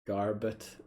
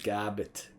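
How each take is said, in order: First: The name is said in the speaker's usual accent. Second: The name is said in a New Zealand accent. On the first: "Garbit is how I would pronounce his name" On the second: "I like the New Zealand accent. It'll probably some, be something like Garbit"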